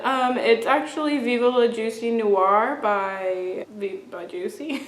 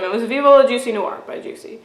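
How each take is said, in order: First: Halting, stumbling answer. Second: Said in the usual way. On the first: Retold or imitated. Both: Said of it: "I didn't say it like that".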